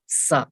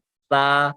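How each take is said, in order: First: The consonant is hissed like an s. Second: The consonant is soft, with no hiss. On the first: The speaker calls it wrong. "सा हम सिटी निकालते हैं" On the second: The speaker calls it right. "सिटी नहीं निकालनी"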